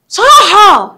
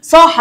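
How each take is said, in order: First: Loud, high demonstrative shout. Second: Said in the usual way. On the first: Shown as a demonstration. Teacher showing pupils what raising the voice means, shouting. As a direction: call the word out with raised voice. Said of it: "رفع صوته". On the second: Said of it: "يعني رفع صوته".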